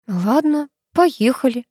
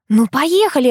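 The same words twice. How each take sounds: First: Resigned, understated giving in; mildly reluctant consent; sighed agreement. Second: High, eager nudge; lightly pleading invitation; coaxing. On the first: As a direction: give in with a small sigh. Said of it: "вздохнула Оля". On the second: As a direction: urge a friend to come along. Coaxing friend to come. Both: A narrator's reading.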